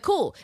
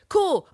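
First: High, flat mock "cool"; deadpan cool. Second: Much higher, louder mock "Cool."; gleeful cool. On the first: Retelling a killer's reaction, mock unbothered "Cool". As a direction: toss off "Cool" like nothing happened. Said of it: "she was like". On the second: Imagining the killer's glee at a death, high mock chirp. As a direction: chirp "Cool" with delight before catching yourself. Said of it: "she'll be like".

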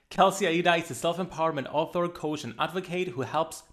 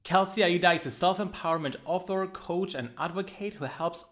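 The two takes are said the same way.

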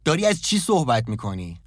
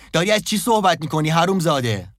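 First: Rising outburst. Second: High, loud furious yell; loud shout. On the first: Jeff confronting Tyler, first take, held back. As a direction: start to lose it, not yet yelling. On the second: Jeff screaming at Tyler, repeating the question, full shout. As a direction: explode at him. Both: A narrator's reading. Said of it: "جف فریاد بلندی زد".

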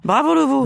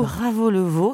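First: Voix de pub enjouée; lance-le comme une réclame; slogan publicitaire. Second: Said in the usual way. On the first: Shown as a demonstration. (slogan de pub joyeux) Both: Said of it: "en faire une punchline efficace".

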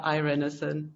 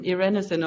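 First: Irenesen opened like "eye": eye-REN-uh-sen; anglicized pronunciation. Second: Irenesen opened with a short "ih": ih-REN-uh-sen; short-i pronunciation. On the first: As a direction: begin Irenesen with a long English "I". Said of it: "an anglicized version of it". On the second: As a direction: begin Irenesen with the vowel of "it". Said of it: "do you pronounce your own name". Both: Shown as a demonstration.

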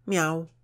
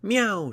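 First: High, loud imitated meow; cat's meow. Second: Very high, loud shouted meow. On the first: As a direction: mew like a cat. Character imitates a cat for pupil. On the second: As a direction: yowl it out like a cat. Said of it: "shouted Gunhild". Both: A narrator's reading.

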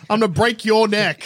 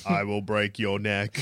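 First: Loud, higher barbarian bellow. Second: Low, soft, slow modulated threat; voice modulator. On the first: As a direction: bellow the threat like a brute. Threatening Green Goblin. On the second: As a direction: drop low and slow like a voice changer. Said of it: "That's what the voice modulator says". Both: Pretend.

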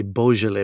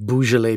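First: "Beaujolais" with first syllable as "bo": BOH-zhuh-lay; corrected Beaujolais. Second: "Beaujolais" with first syllable as "boo": BOO-zhuh-lay; mispronounced Beaujolais. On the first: Co-host correcting the host's wine pronunciation, "Beaujolais" said BOH-zhuh-lay. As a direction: say "Beaujolais" opening on a long "oh" vowel. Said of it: "not Beaujolais, Beaujolais". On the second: Co-host mimicking the host's wine error, "Beaujolais" said BOO-zhuh-lay. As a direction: say "Beaujolais" wrongly, opening on an "oo" vowel. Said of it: "First of all, not Beaujolais".

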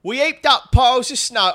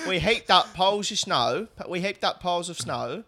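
First: Loud, high South London woman; first try at a South London voice; South London accent. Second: A light South London woman's voice; second attempt at a South London accent. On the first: Acted. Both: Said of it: "you do the voice for her".

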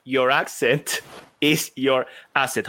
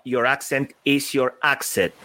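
First: Slow, careful "asset" with no k sound; "asset" said cleanly as "ASS-et", measured pace; corrected retake. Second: "asset" slips out as "akset". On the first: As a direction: say it again slowly, getting "asset" right. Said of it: "Let me say it again". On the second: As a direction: stumble on "asset", adding a k sound like in "accent". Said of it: "Sorry, asset". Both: Real, not acted.

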